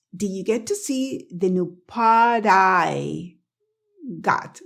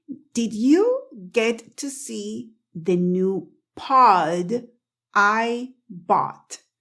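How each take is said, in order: First: "pod I" joined as one word, D tapped like the middle of "daddy"; connected phrase, "pod I" sounding like "pah-dai"; linked tapped D. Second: Very slow, word by word, "pod" and "I" kept apart; careful, separated slow sentence; slow demonstration. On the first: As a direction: run "pod" into "I" with a flapped D. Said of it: "la pronuncian con la D de daddy". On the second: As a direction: say it slowly with a full D in "pod" before "I". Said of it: "voy a decir esta frase lenta". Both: Shown as a demonstration.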